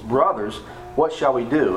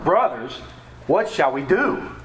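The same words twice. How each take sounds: First: It is read in a calm, plain tone. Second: It is said in a scared, desperate tone.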